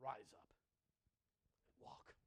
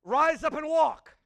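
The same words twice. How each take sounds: First: Hushed command. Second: Booming command. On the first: Preacher quoting Jesus to paralytic, slow soft whisper. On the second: Preacher repeating Jesus's command to congregation, slow loud proclamation. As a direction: Rise up and walk, slow and loud with walk falling. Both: Acted.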